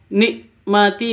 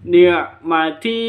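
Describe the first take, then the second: First: The middle consonant is a plain glottal stop. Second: The middle consonant is a deep pharyngeal sound. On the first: The speaker calls it wrong. "bukan nikmati, bukan seperti itu. Itu bunyinya hamzah" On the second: The speaker calls it right. "Kalau ain, ni'mati, seperti itu"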